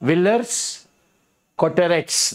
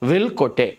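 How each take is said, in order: First: Every written letter is sounded out fully. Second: Silent letters are dropped, giving a shortened form. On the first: The speaker calls it wrong. "వాళ్ళు ఫ్రెంచ్ వాళ్ళు రాసేది ఒకటి" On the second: The speaker calls it right. "దీన్ని ఏమంటారంటే విల్ కొటే"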